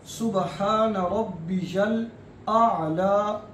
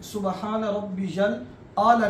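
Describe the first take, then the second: First: सुबहान रब्बियल आला slow, with आला opened by a throaty ayn; correct ayn. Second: सुबहान रब्बियल आला with a plain glottal hamza on आला; the wrong way, आला with a hamza instead of ayn. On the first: Teacher showing students the right ayn sound. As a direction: say आला from the throat, not with a glottal stop. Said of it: "ऐसे पढ़ना है". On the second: Teacher demonstrating the common mistake. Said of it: "नहीं पढ़ना". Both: Shown as a demonstration.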